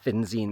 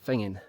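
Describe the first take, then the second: First: The name is said with a 'z' sound. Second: The name is said with an 'ng' sound. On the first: It is read as written on the map. The speaker calls it wrong. "the locals don't pronounce it Finzine" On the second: It is the way the locals say it. The speaker calls it right. "they pronounce it Fingin"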